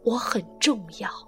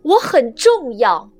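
First: It is said quietly, almost to oneself. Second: It is said loudly, like a proclamation.

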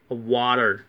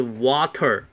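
First: It is said with an American accent. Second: It is said with a British accent.

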